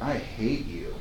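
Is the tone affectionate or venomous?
affectionate. It is said warmly and playfully. It is a loving tease to a partner. "to your lover, right?"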